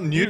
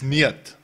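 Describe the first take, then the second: First: The name sounds like 'newt'. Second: The name sounds like 'neat'. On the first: The speaker calls it wrong. "It's not Newt" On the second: The speaker calls it right. "it's Niet. Soos in Afrikaanse neut"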